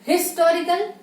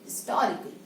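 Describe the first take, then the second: First: Historical with a sounded H and loud, high opening, rising; wrong pronunciation. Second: Historical as 'is-TOR-ical', H barely there, falling; correct pronunciation. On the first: Teacher asks if we say it so, exaggerated mispronunciation. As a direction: hit HIS in historical hard and lift into a question. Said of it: "Do we say historical?". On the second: Teacher correcting after saying no, modelled pronunciation. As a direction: drop the H of historical and lean on TOR. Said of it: "No. It is historical". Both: Shown as a demonstration.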